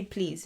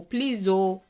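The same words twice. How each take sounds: First: Said in the usual way. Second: "Please, oh" with added weight on the oh; emphatic plea. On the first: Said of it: "when you say please". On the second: Shown as a demonstration. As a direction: stress the plea by tacking "oh" onto "Please". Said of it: "and you add oh".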